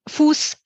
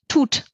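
First: The word is said with F and S sounds. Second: The word is said with T sounds. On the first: "statt Fuß" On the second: "dass ich einen Knalllaut dahin mache"

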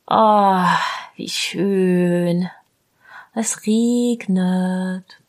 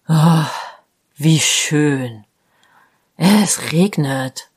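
First: It sounds joyful and pleased. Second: It sounds aggressive and annoyed.

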